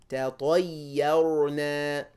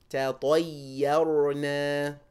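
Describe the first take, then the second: Both takes have the same delivery.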